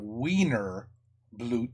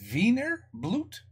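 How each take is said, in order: First: The first word begins with a W sound. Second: The first word begins with a V sound. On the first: The speaker calls it wrong. "It's not Wiener Blut" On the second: The speaker calls it right. "You pronounce it as a V, like Victor?"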